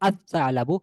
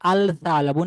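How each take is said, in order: First: The l merges into the following consonant. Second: The l sound of the article is clearly heard. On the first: The speaker calls it right. "হবে আসা আলাবু" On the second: The speaker calls it wrong. "এখানে আল সা আলাবু না"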